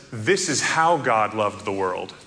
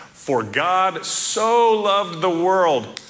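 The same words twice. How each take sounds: First: "how" given the weight, meaning in this way; stress on HOW. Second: "so" drawn out high and loud, meaning how much; slow, emphatic "so" as in so very much; stress on SO. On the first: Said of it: "alternate translation that says". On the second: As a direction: lean hard on "so" as if measuring the amount, slowly. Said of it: "put the wrong inflection on that". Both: Shown as a demonstration.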